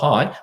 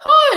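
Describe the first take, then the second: First: It is said flat and low in pitch. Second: It is said high and lively in pitch. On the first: The speaker calls it wrong. "not hi" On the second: The speaker calls it right. "You have to speak very up here"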